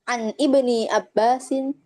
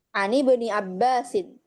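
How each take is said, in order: First: The words are separated, with the hamza pronounced. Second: The words are linked, skipping the hamza. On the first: The speaker calls it wrong. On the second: The speaker calls it right. "Kita ingin baca dengan wasol"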